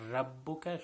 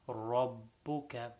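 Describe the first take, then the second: First: The r sound is thin and light. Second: The r sound is thick and full-mouthed. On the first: The speaker calls it wrong. "not rabbuka" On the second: The speaker calls it right. "the ra should be full mouth"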